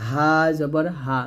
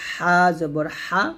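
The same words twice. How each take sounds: First: Said in the usual way. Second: Both হা squeezed from mid-throat; pressed throat H. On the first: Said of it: "নরমালভাবে". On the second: Shown as a demonstration. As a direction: press each হা from the middle of the throat. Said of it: "মাঝখান থেকে চাপ দিয়ে". (চাপ দিয়ে গলার মাঝ থেকে হা)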